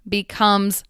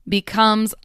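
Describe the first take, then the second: Both takes have the same delivery.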